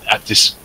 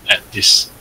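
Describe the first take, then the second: Both takes have the same delivery.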